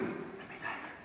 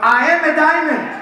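First: It is whispered. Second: It is said loudly.

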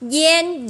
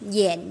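First: The pitch stays high and level. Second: The pitch dips low and then rises. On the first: "Bốn âm ta đọc thế" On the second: "Bốn âm ta đọc thế"

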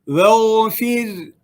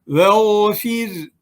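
The two takes are said the same way.

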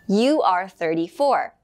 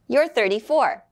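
First: You are is said as two full words. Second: You are is contracted into one syllable.

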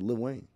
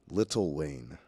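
First: The first word is one short syllable. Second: The first word is two full syllables. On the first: The speaker calls it right. "I said [name]" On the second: The speaker calls it wrong. "There's an apostrophe in there. You gotta say it correctly"

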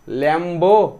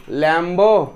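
Both takes have the same delivery.

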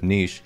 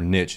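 First: It is said the British way. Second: It is said the American way.

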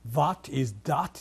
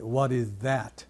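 First: The word 'that' begins with a harder, non-th sound. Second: The word 'that' begins with a soft th sound. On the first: The speaker calls it wrong. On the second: The speaker calls it right.

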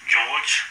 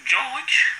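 First: It is said in the speaker's normal voice. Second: It is said in a put-on female voice. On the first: "You don't sound like no fucking female" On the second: "Sound like a fucking old lady"

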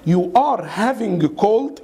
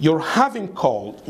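First: The sentence is said slowly with full words. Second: The sentence is said quickly with words reduced. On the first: "انطق معايا" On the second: "انطقها إزاي بقى fast speaking؟"

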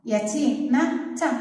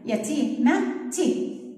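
First: The final t is followed by an a vowel. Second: The final t is followed by an i vowel. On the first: "يلا خلينا نجيب الإت الكبيرة" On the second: "حطيت لها الكسرة"

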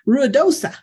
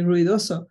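First: The name is said with an English pronunciation. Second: The name is said with a Spanish pronunciation. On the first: This is how many locals say it. "Some people say Ruidosa" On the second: This follows the name's original language. "I speak with a Spanish accent"

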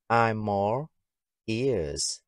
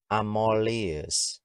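First: Each word is said separately. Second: The words run together into one.

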